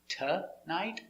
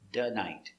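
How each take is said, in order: First: It starts with a t and a weak vowel. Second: It starts with a d and a weak vowel. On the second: "or here between vowels, da-night"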